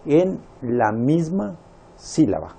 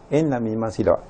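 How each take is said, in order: First: "en la misma" drawn out slowly, stress on "en"; teacher stressing "en la misma sílaba"; slow emphasis. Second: Said in the usual way. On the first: Shown as a demonstration. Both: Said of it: "decíamos que la unión".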